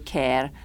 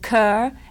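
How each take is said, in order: First: The vowel sounds like the one in 'hair'. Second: The vowel sounds like the one in 'her'. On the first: "in Scotland they call me Care" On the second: "I still get called Kerr"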